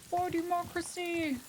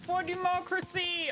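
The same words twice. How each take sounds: First: Mock battle cry. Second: Helldivers battle cry. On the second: Retold or imitated. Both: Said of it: "They say it a lot in the game".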